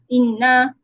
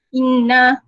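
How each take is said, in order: Both takes have the same delivery.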